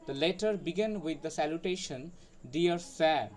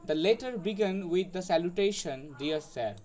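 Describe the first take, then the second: No difference in how they are said.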